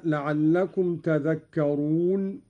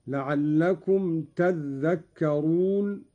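First: Said in the usual way. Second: تذكرون with a held, doubled dh, tadhdhakkarun; doubled dhal. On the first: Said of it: "قرأ قالون بتشديد الذال". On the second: Shown as a demonstration. Sheikh demonstrating Qalun's reading, slow تذكرون with doubled dhal. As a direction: slowly, lean on the doubled ذ in تذكرون. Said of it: "قرأ قالون بتشديد الذال، هكذا".

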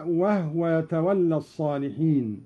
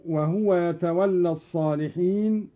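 First: وهو said "wahwa", no vowel on the h; silent-vowel ha. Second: Said in the usual way. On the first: Shown as a demonstration. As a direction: close وهو into two syllables, wah-wa. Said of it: "بإسكان الهاء هكذا". (إسكان هاء «وهو»: «وَهْوَ»)

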